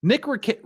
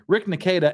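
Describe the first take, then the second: First: "Nick Rick" stumbled out, pitched higher; tripping over "Nick Rick"; fumbling the name. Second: "Rick Nikeda" said by mistake; "Rick Nikeda" with the first and last names swapped; tongue-tied over "Rick Nikeda"; name flubbed. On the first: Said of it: "I cannot say Nick Rekieta". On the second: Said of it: "the reason that I cannot say Nick Rekieta". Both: Real, not acted.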